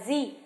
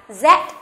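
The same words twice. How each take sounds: First: It is said the American English way. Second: It is said the British English way.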